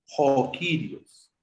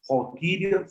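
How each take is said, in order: First: Very slow "Jokirios", syllable by syllable; reading model. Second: "Jokirios" at normal speed, a little higher; reading model. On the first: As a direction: draw out "Jokirios" slowly. ("Jokirios" muy despacio, sílaba por sílaba) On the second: ("Jokirios" a ritmo normal) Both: Shown as a demonstration. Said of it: "la palabra se lee como".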